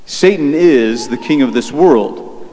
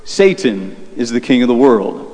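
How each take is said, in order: First: "is" stretched and leaned on in a slow statement; slow, deliberate confirmation with weight on "is"; stress on is. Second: "Satan" set apart by a pause, then the rest falling; retold correction pointing up "Satan"; stress on Satan. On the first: Real, not acted. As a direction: affirm it slowly, hitting "is". He now affirms what she said. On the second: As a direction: land on "Satan", pause, finish evenly. Her correction of his answer.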